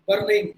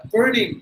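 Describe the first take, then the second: First: "burning" with the R tapped before the n; Indian-English R. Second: "burning" with a smooth American "er", louder. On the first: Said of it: "That is how we pronounce the letter R". ("burning" Tamil ர் ஒலியுடன்) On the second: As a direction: say "burning" with an untapped R. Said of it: "they will apply the sound of er". ("burning" அமெரிக்க er ஒலியுடன்) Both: Shown as a demonstration.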